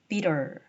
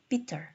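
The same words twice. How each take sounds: First: The middle t is a quick flap like r. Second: The middle t is a full t sound. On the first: "T 사운드가 모음 사이에서는 R로 발음이 돼요" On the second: "어떤 사람이 bitter로 발음한다 칩시다"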